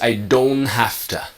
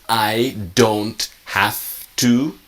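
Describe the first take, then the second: First: It is said quickly with the T dropped. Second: It is said slowly with each sound clear. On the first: "but really it's" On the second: "slow is"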